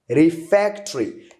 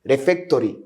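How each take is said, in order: First: The 'o' after the 't' is silent. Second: The 'o' after the 't' is pronounced. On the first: The speaker calls it right. "This O, which is here, is silent" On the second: The speaker calls it wrong. "Don't say refectory"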